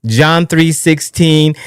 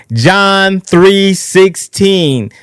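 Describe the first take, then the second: First: Said in the usual way. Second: Drawn out slowly. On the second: Shown as a demonstration. Host proclaiming the Bible verse, very slow and drawn out. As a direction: stretch John three sixteen out very slowly.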